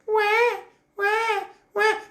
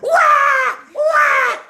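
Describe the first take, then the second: First: The crying is soft and small. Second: The crying is loud and big.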